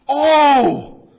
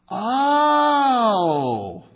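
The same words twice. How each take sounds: First: It is said in a startled, surprised tone. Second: It is said in a tone of sudden understanding. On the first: The speaker is surprised or afraid. "Surprise or fear" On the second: The speaker has just understood something. "yeah, I get it, right? Okay, I'm clued in here"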